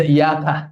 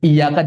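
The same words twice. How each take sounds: First: "Iya, Kak" with a single light y; wrong tajwid reading. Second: "Iya, Kak" with the doubled y held; correct tajwid reading. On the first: Ustadz showing the misreading, "Iya, Kak" without doubled y. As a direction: let the y in "Iya, Kak" go undoubled. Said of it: "jangan dibaca". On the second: Ustadz showing the right reading, "Iya, Kak" with doubled y. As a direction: lean on the long y in "Iya, Kak". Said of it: "jangan sampai salah baca". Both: Shown as a demonstration.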